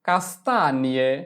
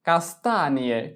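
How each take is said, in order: The two takes are said the same way.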